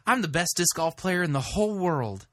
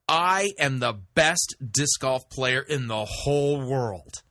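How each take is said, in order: First: The tone is soft and falsely modest. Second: The tone is snarky and boastful. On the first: The speaker pretends to be modest. "The other was feigning, pretending to be humble" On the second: The speaker is full of himself. "the tone I used was kind of snarky and you know, full of myself"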